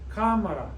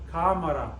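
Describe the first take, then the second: First: The stress is on the first syllable. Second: The stress is on the first syllable.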